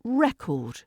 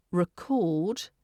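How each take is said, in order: First: "record" as REC-ord, high first syllable, falling; noun stress. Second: "record" with reduced first syllable, weight on CORD; verb stress. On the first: Teacher contrasts it with the verb, "record" stressed on REC. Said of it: "if you put the stress". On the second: Teacher contrasts word meanings, "record" stressed on second syllable. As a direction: say "record" as rih-CORD, rising. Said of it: "when it's a verb". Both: Shown as a demonstration.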